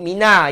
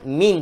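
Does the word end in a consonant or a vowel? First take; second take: vowel; consonant. First: The word ends with an added vowel sound. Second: The word ends on a bare consonant. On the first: The speaker calls it wrong. "Jangan sebut mina ya" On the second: The speaker calls it right. "Min tuan-tuan"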